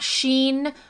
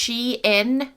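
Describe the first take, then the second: First: The name is said as one syllable, sheen. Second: The name is said as two syllables, she-in. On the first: The speaker calls it wrong. "not Sheen" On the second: The speaker calls it right. "It's Shein"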